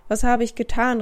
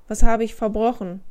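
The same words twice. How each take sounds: First: A raised cry of dismay; laut ausgerufen; calling out. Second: Louder distressed outcry; cry out louder. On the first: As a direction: call it out, upset and bewildered. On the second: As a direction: cry it out louder, pleading innocence. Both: A narrator's reading. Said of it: "rief er".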